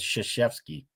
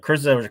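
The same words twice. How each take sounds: First: The name is said unlike its spelling. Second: The name is sounded out letter by letter. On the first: The speaker calls it right. "who would have ever guessed it was Krzyzewski?" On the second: The speaker calls it wrong. "tried to sound it out the way it was appearing"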